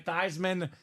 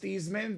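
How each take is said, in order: First: The name rhymes with Heisman. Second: The name does not rhyme with Heisman. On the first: This is the version he adopted to match the Heisman. "he went by Theismann, Theismann for the Heisman" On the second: This is how his family says the name. "the rest of his family is Theismann"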